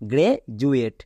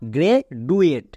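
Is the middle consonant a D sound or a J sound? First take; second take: J sound; D sound. First: The middle consonant is a J sound. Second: The middle consonant is a D sound. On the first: The speaker calls it right. "কিন্তু এর উচ্চারণ কি হবে" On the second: The speaker calls it wrong. "একে অনেকে ভুল করে কি বলে"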